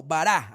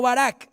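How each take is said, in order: First: "bará" with no final consonant and stress on the last A, ba-RA; "bará", open last syllable, the final A stressed and a bit long; Hebrew bará. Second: "Barak" said with a final k and stress on the first syllable, BA-rak; wrong stress on Barak. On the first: Preacher correcting the Hebrew word, bará stressed on the last A. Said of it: "B A R A, con tilde en la última A". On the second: Preacher showing the wrong reading of the Hebrew word, Barak with a final k. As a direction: say "Barak" like the name, hard k at the end. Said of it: "no, bará". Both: Shown as a demonstration.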